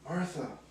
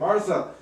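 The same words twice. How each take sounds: First: The name is said in a gentle, soothing way. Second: The name is called out urgently to interrupt. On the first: The speaker is showing her compassion. "that second Martha was the soothing one" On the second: The speaker wants to get her attention. "kind of like get her attention because she's so frustrated and yelling"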